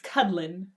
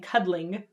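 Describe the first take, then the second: First: The word ends with a relaxed n sound. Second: The word ends with a full, crisp ng sound. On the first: The speaker calls it right. "It sounds so much more casual" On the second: The speaker calls it wrong. "where there's an ng at the end"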